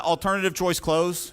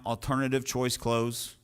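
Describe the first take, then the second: First: "alternative choice close" said higher, louder and slowed, each word hit; punched term. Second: "Alternative choice close" repeated slowly at normal pitch and level, word by word; slow dictation. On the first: Coach stamping "alternative choice close" into students' notes, loud and slow. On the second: Coach slowly dictating "Alternative choice close" so students can write it. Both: Shown as a demonstration. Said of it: "write that down".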